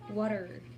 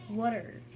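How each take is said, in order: First: The T is softened to a D-like sound. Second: The same.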